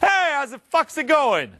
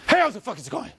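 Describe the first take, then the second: First: It sounds open, loud and warm. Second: It sounds tight and defensive.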